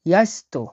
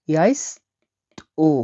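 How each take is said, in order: First: Said in the usual way. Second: ইয়াইস্তো drawn out very slowly, syllable by syllable; slow teaching demo of ইয়াইস্তো. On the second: Shown as a demonstration. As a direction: stretch ইয়াইস্তো out slowly for learners. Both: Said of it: "দন্ত ছয় তয় ওকার হবে এটা".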